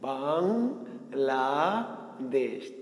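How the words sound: The word is split into three separate parts. "তিনটা"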